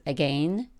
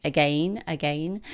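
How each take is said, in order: First: Said in the usual way. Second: Light mock British accent, rising on each again; toddler's British accent. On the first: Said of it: "She says it like that". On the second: Mom imitating her toddler's favorite word in a light British accent. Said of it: "She says it like that in sort of a British accent".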